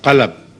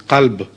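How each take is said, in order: First: It is said as two syllables. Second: It is said as one syllable. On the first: The speaker calls it wrong. "not qalab" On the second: The speaker calls it right. "The right pronunciation is qalb"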